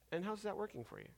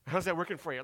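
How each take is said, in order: First: It is asked sincerely, with genuine interest. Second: It is asked smugly, like knowing all the answers.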